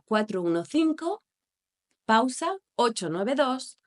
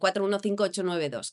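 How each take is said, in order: First: The digits are split into groups with pauses. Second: The digits run together quickly without pauses. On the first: The speaker calls it right. "Los guiones marcan una mayor pausa" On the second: The speaker calls it wrong. "todo rápido"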